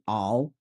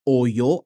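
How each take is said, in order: First: Oil is said in a Southern US accent. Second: Oil is said in a general American accent. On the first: This is how the speaker says it. "I'll say all" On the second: This is how others say it. "Instead of saying oyo"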